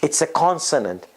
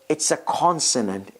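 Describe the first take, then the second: The two takes are said the same way.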